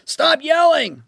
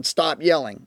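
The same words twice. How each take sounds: First: High, loud mock parent yell; a hammed-up parent's yell, high and loud. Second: Said in the usual way. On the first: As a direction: play the frazzled parent shouting back. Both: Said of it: "when parents yell at their children".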